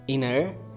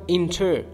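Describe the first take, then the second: First: The T after the N is dropped. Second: The T after the N is clearly pronounced. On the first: The speaker calls it right. "You might say international, inner" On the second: The speaker calls it wrong. "It's not inter"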